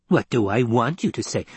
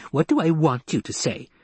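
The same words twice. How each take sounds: First: Said in the usual way. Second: Mocking, higher echo of the girl's words; cruel mimicry. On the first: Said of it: "a tone of cruel mimicry". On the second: A narrator's reading. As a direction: parrot her back to taunt her. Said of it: "The old voice carried a tone of cruel mimicry".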